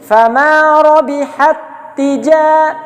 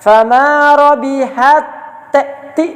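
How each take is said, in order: First: The two t sounds merge into one doubled t. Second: The first t is voiced separately before the next. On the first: The speaker calls it right. "yang ta sukun tidak dibaca lagi" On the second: The speaker calls it wrong. "jangan dibaca fama robihat ti, ah, jangan"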